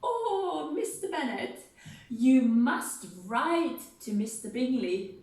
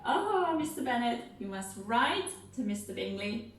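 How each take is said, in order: First: Fussy Missus Bennet. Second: Missus Bennet pleading. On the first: Acted. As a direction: wheedle your husband like an excited mother. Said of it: "Missus Bennet's gonna say". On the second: Shown as a demonstration. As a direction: plead like the fussy mother. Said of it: "So we'll go".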